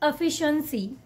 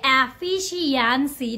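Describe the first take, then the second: First: The syllables are said quickly and compactly. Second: Every syllable is stretched out slowly. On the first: The speaker calls it right. "the correct way to say this word is efficiency" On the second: The speaker calls it wrong. "Don't just stretch every syllable"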